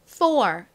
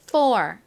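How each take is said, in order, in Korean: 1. 첫 자음을 세게 냅니다. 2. 첫 자음을 세게 냅니다.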